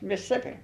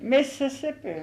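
First: The first vowel sound is dropped. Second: The first vowel sound is fully pronounced. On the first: This is the everyday conversational pronunciation. "We leave out the sound of IWS" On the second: This is the careful broadcast pronunciation. "That's how they say it on television"

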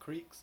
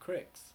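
First: The vowel is a long ee sound. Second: The vowel is a short i sound. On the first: This is one regional way of saying the word. "Some people call them creeks" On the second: This is another regional way of saying the word. "some call them cricks"

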